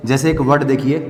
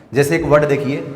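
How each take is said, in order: Both takes have the same delivery.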